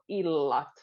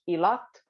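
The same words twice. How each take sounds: First: The L sound is long. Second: The L sound is short. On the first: The speaker calls it right. "So we'll put double L" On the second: The speaker calls it wrong. "If it would just be one, it would sound illat"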